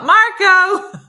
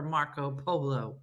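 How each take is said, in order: First: Loud, high-pitched call-out; mock yell. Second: Hushed, softer voice with a laugh; mock whisper. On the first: Joking about yelling at polo, big mock yell. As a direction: belt it out like a pool-game shout. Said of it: "How are they gonna yell". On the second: Joking about quiet fans at polo, mock whisper. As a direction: drop to a slow hush for the name. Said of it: "How are you gonna whisper".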